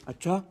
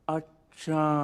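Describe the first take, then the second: First: It sounds shocked and surprised. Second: It sounds thoughtful and drawn out.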